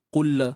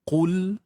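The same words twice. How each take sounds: First: A short extra vowel follows the final L. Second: The final L stops cleanly with no vowel. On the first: The speaker calls it wrong. "Jangan tawallud seperti ini" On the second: The speaker calls it right. "matikan lam, uh, pegang makhraj lam sebaiknya"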